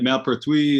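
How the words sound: The name is pronounced the French way. "is the French way"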